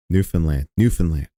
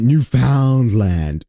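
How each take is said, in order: First: "Newfoundland" clipped to NEW-fn-lan, low and plain; showing the right "Newfoundland", new-fn-land; correct Newfoundland. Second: "Newfoundland" said slowly as new-FOUND-land, every syllable spelled out; mocking the host's "Newfoundland" as new-found-land; mispronounced Newfoundland. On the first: Shown as a demonstration. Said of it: "Not that hard to say". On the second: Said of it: "Why does he pronounce it".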